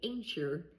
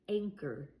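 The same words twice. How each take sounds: First: The middle consonant is a ch sound. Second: The middle consonant is a k sound. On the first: The speaker calls it wrong. "If I use ch, I'd say anchor, but we don't say that" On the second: The speaker calls it right. "We say anchor and I only hear the k sound"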